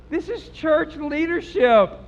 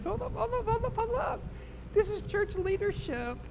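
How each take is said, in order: First: High, slow, drawn-out declaration; emphatic repeat. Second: Very high, quiet squeal; high hushed disbelief. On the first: Preacher repeats who did the cursing, slow emphatic declaration. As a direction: hammer it home slowly. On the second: Preacher stops over cursing church leaders, high hushed disbelief. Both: Real, not acted.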